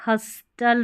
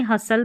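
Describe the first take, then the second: First: हस्टल with the T sounded; wrong pronunciation. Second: हसल with silent T; correct pronunciation. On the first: Teacher showing what not to read, हस्टल with spoken T. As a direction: say हस्टल with an audible t. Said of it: "हस्टल नहीं". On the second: Teacher giving the right reading, हसल without T. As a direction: say हसल, s straight into l. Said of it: "हसल पढ़ेंगे". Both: Shown as a demonstration.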